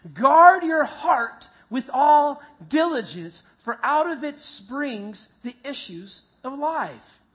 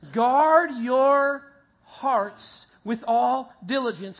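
First: Slow, much louder start, emphatic; louder reading again. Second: Slow, louder, measured group reading; congregation reading. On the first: Pastor urging the congregation to read it louder again. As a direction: push the verse out with more conviction. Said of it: "Try one more time". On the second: Pastor leading the congregation in reading the verse, slowly. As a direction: read it out together, slowly. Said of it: "Read it with me". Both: Shown as a demonstration.

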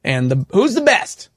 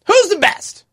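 First: Said in the usual way. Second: High, big hype voice; dramatic announcer. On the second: Acted. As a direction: call it out like a game-show host. Teasing a playoff announcement.

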